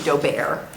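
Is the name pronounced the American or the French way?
French. The name is given a French pronunciation. "For the French would be Daubert"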